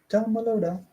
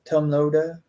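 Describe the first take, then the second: First: An extra vowel sound comes before 'Loda'. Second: No extra vowel sound comes before 'Loda'. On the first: "I want to, to pronounce an, another E" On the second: "It's just Tom Loda"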